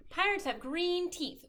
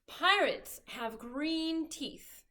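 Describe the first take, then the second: First: Said in the usual way. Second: Slow reading. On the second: Shown as a demonstration.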